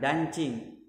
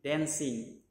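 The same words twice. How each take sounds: First: The middle consonant is not an s sound. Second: The middle consonant is an s sound. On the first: The speaker calls it wrong. "Bukan dancing" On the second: The speaker calls it right. "C-nya di sana berubah menjadi S"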